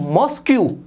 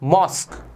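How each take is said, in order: First: The word ends with a 'kyoo' sound. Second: The word ends with a plain 'k' sound. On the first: The speaker calls it wrong. "इसका pronunciation आप करते हो मॉस्क्यू, जो कि गलत होता है।" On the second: The speaker calls it right. "इसका करेक्ट प्रोनाउंसिएशन होता है मॉस्क।"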